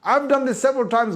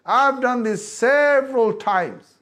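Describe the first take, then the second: First: Said in the usual way. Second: "several" slowly stressed, each word drawn out; slow emphatic repeat. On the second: Shown as a demonstration. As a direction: lean hard on "several", slow it right down.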